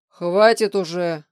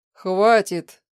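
First: Irritated shout. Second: Stern stop. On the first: A narrator's reading. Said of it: "раздражённо закричал Владимир Валерьевич". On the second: Acted. Professor tries to stop her.

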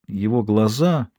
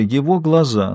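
First: Его глаза drawn out slowly and softer; slow hushed Его глаза; slow, fading. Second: Его lifted and stressed; его глаза with weight on его. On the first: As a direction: let Его глаза sink quietly. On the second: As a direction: lean hard on его in его глаза. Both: A narrator's reading.

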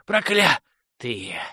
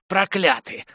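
First: «Проклятые» dragged out very slowly, fading to a wheeze; slow, dying whisper-rasp of «Проклятые»; barely wheezed. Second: «Проклятые» thrown out higher as a rasped curse; «Проклятые» pitched up, hoarse curse; cursing rasp. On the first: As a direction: let «Проклятые» die away on the last breath. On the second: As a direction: fling «Проклятые» at them. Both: Acted. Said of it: "едва хрипел".

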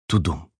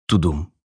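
First: Softer, falling heartbeat, tu-dum; the heartbeat fades into the hush; fading heartbeat. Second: A heart thumping in the silence; heartbeat thud. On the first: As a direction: let the second beat die away. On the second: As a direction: say the heartbeat like a muffled pulse. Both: A narrator's reading.

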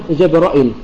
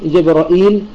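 First: “جبرائيل” said as Jabra'il, with a short i after the hamza; hamza without ya. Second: “جبرائيل” said as Jabra'īl, with a long ī after the hamza. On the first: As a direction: keep the last vowel of “جبرائيل” short: Jabra'il. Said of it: "شعبة يحذف الياء". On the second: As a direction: lengthen the last vowel of “جبرائيل”: Jabra'īl. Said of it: "وعلى إثبات الهمزة المكسورة". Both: Shown as a demonstration.

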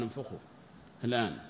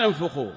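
First: "انفخوا" said much softer and lower, almost under the breath; quiet command. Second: "انفخوا" called out louder; a ringing order "انفخوا" to the workers; loud command. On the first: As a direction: hush the order "انفخوا الآن". (أمر هادئ بصوت منخفض: "انفخوا") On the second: (أمر بصوت عالٍ: "انفخوا") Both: Retold or imitated. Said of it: "قال".

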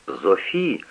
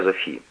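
First: Soft, rising plea; pleading softly. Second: Quiet final plea, falling; soft falling plea. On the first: Mother softly begs Sophie to help. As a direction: beg her quietly. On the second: Mother pleads with Sophie, soft and tired. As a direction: let the name fall, begging softly. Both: A narrator's reading. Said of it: "взмолилась мать".

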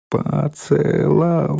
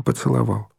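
First: "поцеловал" drawn out slowly, higher; syllable by syllable. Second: Said in the usual way. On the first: A narrator's reading. Girl marvels to her grandfather at being kissed, syllable by syllable. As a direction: stretch each syllable of "поцеловал". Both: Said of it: "произнесла Ленка по складам".

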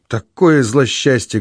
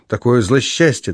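First: «Такое злосчастье!» drawn out slowly and earnestly; slow, heartfelt lament; fervent. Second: Said in the usual way. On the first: A narrator's reading. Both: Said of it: "горячо повторила она".

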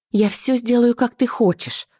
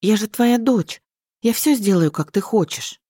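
First: High, pleading promise; beg, voice pitched high; wife begging her husband, high and wailing; wailing plea. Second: Robotic repeating. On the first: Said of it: "причитала в голос". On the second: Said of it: "повторяешь, как робот". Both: A narrator's reading.

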